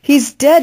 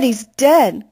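First: Higher, rising anguished cry on dead. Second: Falling, sinking repeat of dead; crying out. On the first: Mama tells Flora the news, a high anguished cry. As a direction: cry it out in grief, pitch climbing. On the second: Mama repeats the news to Flora, a sinking falling cry. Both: A narrator's reading. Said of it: "Mama cried out".

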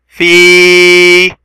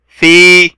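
First: "في" with the ee held long; long vowel. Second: Said in the usual way. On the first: Shown as a demonstration. Teacher showing the long sound of fa, drawn-out "في". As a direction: sustain the ee of "في" on a level note. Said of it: "صوت طويل للفاء". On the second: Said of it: "فاء كسرة".

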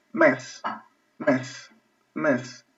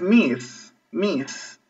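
First: "mes" with an e vowel; first pronunciation, "mes". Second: "miss" with an i vowel and drawn-out s; second pronunciation, "miss". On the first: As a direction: demonstrate "mes" with a clear e. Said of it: "escuchen la diferencia". ("mes" pronunciado con e) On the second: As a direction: demonstrate "miss" with a clear i. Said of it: "Y la segunda es". ("miss" pronunciado con i) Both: Shown as a demonstration.

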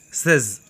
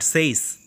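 First: "says" with a short E; correct SAYS. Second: "says" with a long AY vowel; wrong SAYS. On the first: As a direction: say "says" like "sez". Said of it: "We should pronounce it as". (short-vowelled "says", as in "sez") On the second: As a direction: say "says" to rhyme with days. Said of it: "not says". ("says" mispronounced as "sayz") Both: Shown as a demonstration.

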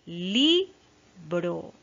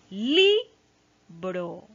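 First: Teacher repeating Libro with the stressed syllable marked; stress on LI again. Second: Libro with LI said louder; teacher modelling the stressed syllable in libro. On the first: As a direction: stretch the LI of Libro for the class. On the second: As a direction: lean on the LI of libro. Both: Shown as a demonstration. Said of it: "está de rojito".

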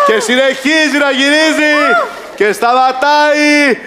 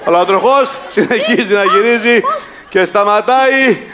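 First: High, building game-show call; excited announcement. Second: Suspenseful announcement. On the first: Host calls the spinning wheel for contestant, high excitement. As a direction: pitch it up and stretch the final word. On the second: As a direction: stretch the last word as the wheel stops. Host announcing the spinning wheel. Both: Pretend.

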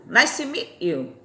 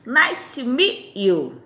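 First: Said in the usual way. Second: Nice to meet you said very slowly; slow repeat-after-me model; slow teaching demo. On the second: Shown as a demonstration. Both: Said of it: "Prazer em conhecê-lo".

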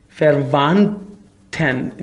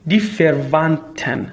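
First: فروانتن drawn out slowly, each syllable clear, weak first vowel; slow careful pronunciation. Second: Said in the usual way. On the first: Shown as a demonstration. Teacher showing learners the weak sound, slow careful pronunciation. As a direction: spell out فروانتن slowly for the class.

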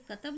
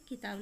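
First: कतब read flat as "katab" with no vowel signs; wrong reading. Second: किताब said fully as "kitaab" with its vowel signs; correct reading. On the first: Teacher to children, showing the misspelling कतब read as "katab". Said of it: "यानी कि कतब नहीं होगा". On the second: Teacher to children, giving the correct किताब as "kitaab". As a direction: pronounce किताब clearly as "ki-taab". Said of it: "किताब लगाएंगे मात्रा लगा के". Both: Shown as a demonstration.

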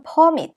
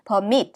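First: PERmit, first syllable stressed as a noun. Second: PerMIT, second syllable stressed as a verb. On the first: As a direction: hit PER in "permit", keep -mit light. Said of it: "앞에 강세가 오고요". ("permit"의 앞 음절 per에 강세) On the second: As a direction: keep per- light, hit MIT in "permit". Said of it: "뒤에 강세가 옵니다". ("permit"의 뒤 음절 mit에 강세) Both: Shown as a demonstration.

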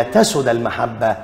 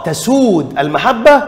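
First: تسد with a short u, dropping in pitch; short vowel in تسد. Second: تسود with a long, drawn-out oo; long vowel in تسود. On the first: Teacher shows the verb after dropping the waw, short u in تسد. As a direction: cut the oo short, "tasud", said lower. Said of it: "حذفت الواو لعدم التقاء الساكنين". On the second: Teacher offers the first of two choices, long oo in تسود. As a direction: stretch تسود to "tasood", higher, questioning lift on المحبة. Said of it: "ولا". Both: Shown as a demonstration.

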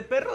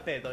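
First: Said in the usual way. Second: Perro said as "pedo"; soft d sound replacing the rolled rr in "pedo"; can't roll R. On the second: Shown as a demonstration. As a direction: childhood lisped R, "pedo" for perro. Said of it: "dislalia es que no puedas decir la R".

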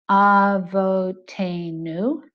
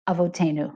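First: "avotenu" drawn out very slowly, each syllable split apart, rising at the end; American accent. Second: Israeli accent. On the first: Teacher demonstrating how an American says "avotenu". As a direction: chop "avotenu" into separate English-style syllables. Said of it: "An American might normally say". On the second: Teacher demonstrating how an Israeli says "avotenu". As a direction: run the syllables of "avotenu" together, Israeli style. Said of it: "A more authentic Israeli accent would say". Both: Shown as a demonstration.

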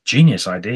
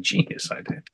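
First: Said in the usual way. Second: "Genius idea" whispered, much softer; whispered aside. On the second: Real, not acted. Host repeating praise to himself.

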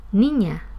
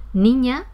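First: "niña" with a more open, longer final A; aspirated plural S. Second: Said in the usual way. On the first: Shown as a demonstration. Teacher contrasting singular and plural, "niña" with open final A. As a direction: open and lengthen the last vowel of "niña" for plural. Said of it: "un poco más abierta o un poco más larga". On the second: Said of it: "Esa segunda pronunciación era la del plural".

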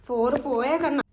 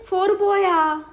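First: Said in the usual way. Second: four പോയാ with പോയാ pitched much higher and louder; playful high question. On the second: Real, not acted. Mother playfully asks the toddler about the missing four. Counting toys with baby.

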